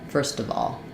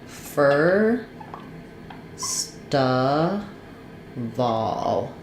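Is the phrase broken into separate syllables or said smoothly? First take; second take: smoothly; separate syllables. First: It is said smoothly with sounds linked together. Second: It is split into separate syllables with pauses.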